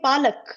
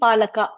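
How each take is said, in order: First: The word ends on a bare k sound. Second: The word ends with an added a vowel. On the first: The speaker calls it right. "that ka is half" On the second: The speaker calls it wrong. "We cannot say palaka"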